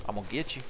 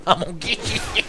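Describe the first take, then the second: First: Soft teasing threat; quiet playful threat. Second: Higher, quicker, breaking into giggles; giggling playful threat. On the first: Player stalking a game enemy, quiet playful threat. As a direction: murmur it softly to your prey. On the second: Player stalking a game enemy, giggling playful threat. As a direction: tease it, dissolving into laughter. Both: Pretend.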